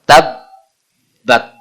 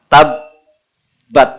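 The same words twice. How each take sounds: First: The b sound is doubled and held. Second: The same.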